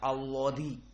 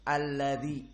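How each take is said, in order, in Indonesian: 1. L-nya tebal dan penuh. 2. L-nya tipis dan ringan. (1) "tidak alladzi seperti lafdzul jalalah Allah" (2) "huruf muraqqaqah dibaca dengan alladzi"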